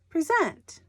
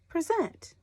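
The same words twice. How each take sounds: First: The stress is on the second syllable. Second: The same.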